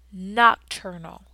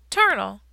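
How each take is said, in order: First: Nocturnal said slowly and fully as nok-TUR-nul; correct pronunciation. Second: Put-on ternal, said like a confident kid getting it wrong; mispronounced word. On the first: Acted. The hamster corrects the pupil, saying Nocturnal slowly and carefully. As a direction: draw out every syllable of Nocturnal. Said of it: "I squeaked". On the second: A pupil answers the teacher with ternal for nocturnal. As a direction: say ternal as TUR-nul, the "noc" dropped off. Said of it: "he's ternal".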